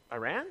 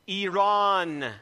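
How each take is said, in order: First: Iran said as eye-RAN; Iran with a flat English a, rising; guessed Iran. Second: Iran said as ee-RAHN, louder; Iran with open ah and stress on RAHN; corrected Iran. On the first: Asking the woman if she means eye-RAN. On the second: Woman correcting the pastor's Iran. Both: Retold or imitated. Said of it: "She corrected me".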